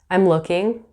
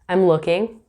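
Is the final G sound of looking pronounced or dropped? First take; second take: pronounced; pronounced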